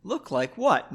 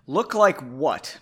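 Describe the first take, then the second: First: Lighter, higher, friendly question; nice, mildly amused curiosity; smiling. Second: Slow, challenging question; drawn-out, mildly snippy retort; bitchy. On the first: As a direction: ask it pleasantly with a smile. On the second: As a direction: ask it with snooty attitude. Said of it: "I thought she was gonna be a bitch". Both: A narrator's reading.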